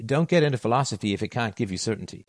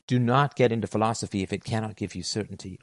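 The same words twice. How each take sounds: First: Said in the usual way. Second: Firm, deliberate stress on "Do not" and "cannot"; absolute emphasis. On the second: Real, not acted. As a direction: spell out "Do not" and "cannot" in full, each word weighted. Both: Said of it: "I'll say this with, with absolute emphasis".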